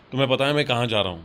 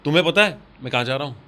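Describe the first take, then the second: First: The emphasis falls on the word kahan. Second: The emphasis falls on tumhen pata. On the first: "कहाँ पे आया" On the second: "तुम्हें पता पे आया"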